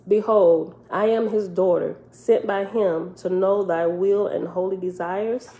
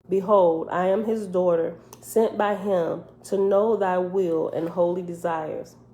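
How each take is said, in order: First: It is said as a question. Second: It is said as a statement.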